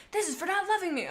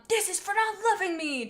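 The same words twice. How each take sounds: First: High, tearful mock screech. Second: Mildly raised, higher screech. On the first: Chaser rereads his attack line with a mock tearful wail. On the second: Acted. Chaser lashes out at Firestar in a mild high screech. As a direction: snarl it up high, wounded. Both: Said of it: "Chaser screeched".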